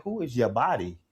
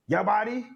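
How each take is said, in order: First: Said in the usual way. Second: His name in a mock Finnish accent, "Your body?" rising high. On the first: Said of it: "I'm like". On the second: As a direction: imitate a Finnish teammate saying "Your body?" as a question. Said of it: "they're saying my name in the Finnish accent".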